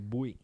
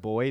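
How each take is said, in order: First: It is said with a Jamaican-like accent. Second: It is said in a plain American accent.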